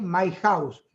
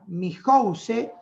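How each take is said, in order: First: It is pronounced with English sounds. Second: It is pronounced with Spanish sounds. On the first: A screen reader set to English reads it. The speaker calls it right. "en ese me salió un poco mejor" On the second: A screen reader set to Spanish reads it. The speaker calls it wrong. "que diga mi house"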